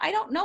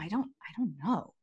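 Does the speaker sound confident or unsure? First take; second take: confident; unsure. First: It is said in a confident, steady voice. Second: It is said in a weak, hesitant voice. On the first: The speaker will find the answer. The speaker calls it right. "But say it with confidence" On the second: The speaker is giving up on the question. The speaker calls it wrong. "not like the, oh, I don't know"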